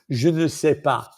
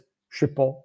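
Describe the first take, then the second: First: The word ne is said in full. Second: The word ne is left out. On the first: The speaker calls it wrong. "No one says that" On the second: The speaker calls it right. "Everyone says"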